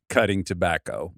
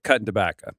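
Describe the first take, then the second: First: It is said in a plain, standard accent. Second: It is said in a rural local accent.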